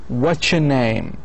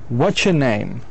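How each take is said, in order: First: "What is your" blends into a short "watcher". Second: "What is your" blends into a short "watcher".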